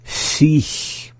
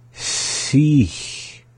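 First: SICH in one go, high, ending in a hiss; up to speed. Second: SICH stretched, high, long S and long hissed ending; slowly. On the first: Teacher saying the word for repeating, up to speed. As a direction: say SICH compactly, hissed ending. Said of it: "up to speed". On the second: Teacher attempting to slow a subtle word, slowly. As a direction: draw out both hisses in SICH. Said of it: "Kind of a hard one to slow down". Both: Shown as a demonstration.

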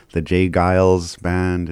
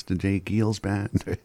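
First: Giles with a long "eye" vowel; right pronunciation. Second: Giles said as "geels", long ee; doubtful alternative pronunciation. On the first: Shown as a demonstration. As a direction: say Giles to rhyme with "miles". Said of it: "I've been saying it right the whole time". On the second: Retold or imitated. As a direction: say Giles to rhyme with "feels". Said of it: "I would be like".

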